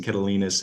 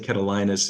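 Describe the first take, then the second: First: Catalinas with third syllable like "lean"; corrected pronunciation. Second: Catalinas with third syllable like "line"; own mispronunciation. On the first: Chair correcting his own slip, corrected Catalinas with EE. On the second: Chair owning up to his slip, mispronounced Catalinas. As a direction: say Catalinas with a long I in "li". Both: Shown as a demonstration. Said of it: "I apologize for my pronunciation of that".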